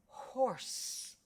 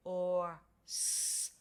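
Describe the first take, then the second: First: Said in the usual way. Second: "Or s" in separate sounds after a puffed h; sounded out. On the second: Shown as a demonstration. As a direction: pause between long "Or" and hissed "s". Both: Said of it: "let's say the word together".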